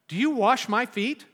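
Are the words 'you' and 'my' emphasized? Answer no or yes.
no. The pronouns carry no special emphasis.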